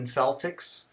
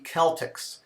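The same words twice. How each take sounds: First: It is said the everyday Boston way. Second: It is said the classical Latin way. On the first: This is how people actually say it. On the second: People will look at you strangely.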